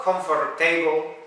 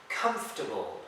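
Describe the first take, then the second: First: "comfortable" with a full "table" ending; mispronunciation demo. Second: "Comfortable" squeezed to KUMF-tuh-bul; correct pronunciation. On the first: Teacher showing learners what it's not, mispronounced. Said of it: "It's not". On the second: Teacher modelling the word for learners, correctly pronounced. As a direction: say "Comfortable" in three syllables, no O or R. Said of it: "you don't have to pronounce the O and the R". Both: Shown as a demonstration.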